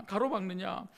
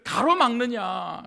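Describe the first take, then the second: First: Said in the usual way. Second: 가로막느냐 drawn out slow, louder and falling; impassioned 가로막느냐, slow and loud; emphatic preaching cry. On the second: Acted. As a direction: hold and hammer 가로막느냐.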